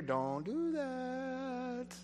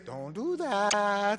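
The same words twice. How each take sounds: First: Slow, soft whispered warning; inner whisper. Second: Said in the usual way. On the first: Pretend. The Holy Spirit warning a listener: soft slow whisper. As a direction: breathe it like a voice in your ear. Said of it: "you hear the whisper in your". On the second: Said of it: "My suggestion is".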